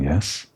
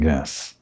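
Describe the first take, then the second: First: The voice rises on the word, like a question. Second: The voice falls on the word, like a statement. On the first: It asks for confirmation. The speaker calls it wrong. "Or that wasn't a question" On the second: It confirms the point. The speaker calls it right. "Let's try a different intonation"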